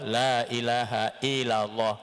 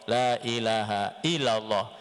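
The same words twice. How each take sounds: No difference in how they are said.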